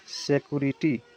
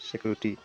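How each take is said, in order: First: सिक्योरिटी drawn out in separate syllables. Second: Said in the usual way. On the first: Shown as a demonstration. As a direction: sound out सिक्योरिटी part by part. (सिक्योरिटी का हर अक्षर अलग-अलग बोलें) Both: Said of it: "जैसे ही इसका उच्चारण कीजिएगा".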